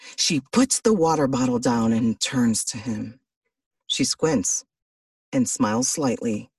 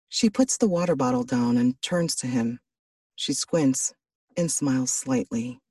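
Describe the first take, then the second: First: It is read in a big, exaggerated, dramatic way. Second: It is read in a quiet, intimate, immersive way.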